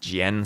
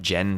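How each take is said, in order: First: The name is said as two syllables. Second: The name is said as one syllable. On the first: The speaker calls it right. "so it's two syllables with the emphasis on the N" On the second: The speaker calls it wrong. "not not Jen"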